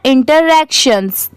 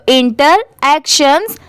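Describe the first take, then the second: First: "interactions" run together as one quick word; at speed. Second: "interactions" split slowly as inter, then actions; slow, in parts. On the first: Teacher showing the speedy reading, "interactions" quick and joined. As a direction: read "interactions" swiftly, with no gap between parts. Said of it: "इसे speed में कैसे पढ़ते हैं". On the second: Teacher putting both parts together for learners, "interactions" slowly split. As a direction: say "interactions" in two separate, careful parts. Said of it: "अब दोनों साथ में मिला देंगे". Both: Shown as a demonstration.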